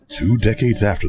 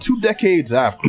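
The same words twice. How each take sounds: First: It is said in a put-on movie-trailer voice. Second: It is said in the speaker's normal voice.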